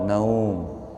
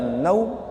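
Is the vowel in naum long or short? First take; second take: long; short. First: The vowel is drawn out long. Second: The vowel is held short. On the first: The speaker calls it right. "Sing bener napa?" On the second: The speaker calls it wrong. "Nek dibaca naum niku salah"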